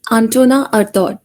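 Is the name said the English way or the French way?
French. The name is said with French pronunciation. "the French people uh, pronounce his name like"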